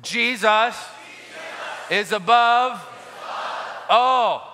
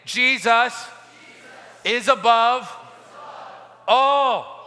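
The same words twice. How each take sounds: First: Shouted with conviction. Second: Said in the usual way. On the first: Shown as a demonstration. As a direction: shout it, meaning every word. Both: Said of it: "Come on, you've got to say it like you mean it".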